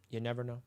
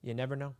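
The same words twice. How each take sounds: The two takes are said the same way.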